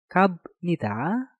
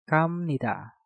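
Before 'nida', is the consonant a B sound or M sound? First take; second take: B sound; M sound. First: A b sound comes before nida. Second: An m sound comes before nida. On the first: The speaker calls it wrong. "Selanjutnya, kabnida" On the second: The speaker calls it right. "biopnya kita rubah menjadi miem menjadi kamnida"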